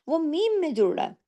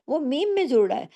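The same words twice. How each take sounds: The two takes are said the same way.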